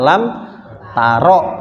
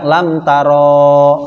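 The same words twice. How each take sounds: First: The final vowel of taro is cut short. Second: The final vowel of taro is held long. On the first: The speaker calls it right. "dibaca lam taro pendek" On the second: The speaker calls it wrong. "dibaca panjang lam taro, nah, ini keliru"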